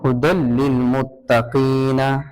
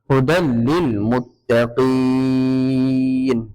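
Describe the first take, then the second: First: The last word ends with a full vowel. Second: The last word ends on a stopped consonant. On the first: The speaker calls it wrong. "এরকম বলতে পারবো না" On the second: The speaker calls it right. "আয়াতের শেষে গুল চিহ্ন আছে"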